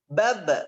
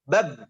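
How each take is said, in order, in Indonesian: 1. b terakhir berakhir dengan gema memantul. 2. b terakhir berhenti tanpa gema. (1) "maka terdengar suara pantulan pas di ujungnya di sini" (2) "Biasanya pas di sini lupa dipantul ini. ... bukan demikian. Harus dipantulkan"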